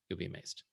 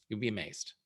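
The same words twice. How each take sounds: First: Soft knowing afterthought; quiet echo. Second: Said in the usual way. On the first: Shown as a demonstration. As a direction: say "You'll be amazed." again, dropped much softer. Softer echo of the promise.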